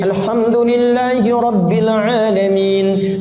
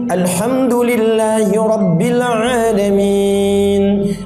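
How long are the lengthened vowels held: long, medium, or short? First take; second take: short; medium. First: It is recited fast with short vowel lengthening. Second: It is recited moderately with medium vowel lengthening. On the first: "Hadar itu bacaan cepat tapi tajwidnya terpenuhi semua. Jadi kan dua harakat" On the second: "mutawasid jadi empat. Empat harakat dua detik"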